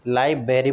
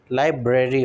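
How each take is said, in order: First: "लाइब्रेरी" as lai-be-ri; dropped R. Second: "लाइब्रेरी" as lai-bre-ri; both Rs sounded. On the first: Teacher imitates a common mistake, "लाइब्रेरी" as lai-beri. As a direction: leave out the R after B in "लाइब्रेरी". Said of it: "बोलते हैं कई लोग". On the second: Teacher corrects learners, "लाइब्रेरी" with clear "ब्रे". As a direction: put the R after B in "लाइब्रेरी". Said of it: "लाइब्रेरी होता है". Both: Shown as a demonstration.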